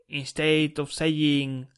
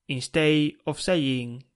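Both takes have the same delivery.

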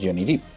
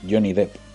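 First: The surname's vowel is a long 'ee' sound. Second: The surname's vowel is a short 'e' sound. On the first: The speaker calls it wrong. "Que no es Johnny Depp, no se llama Johnny Profundo" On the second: The speaker calls it right. "es Johnny Depp"

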